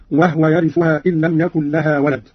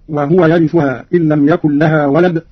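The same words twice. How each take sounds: First: "وهو" with no vowel on the haa; Qalun's silent haa. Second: Said in the usual way. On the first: Shown as a demonstration. Teacher demonstrating Qalun's reading, haa in "وهو" made vowelless. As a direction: say "وهو" as wahwa, haa unvowelled. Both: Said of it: "قرأ قالون بإسكان الهاء هكذا".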